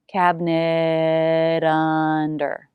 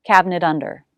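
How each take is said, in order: First: "Cabinet under" very slow with the T flapped into "under"; slow flap T demo. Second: Said in the usual way. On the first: Shown as a demonstration. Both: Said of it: "It will be a flap T".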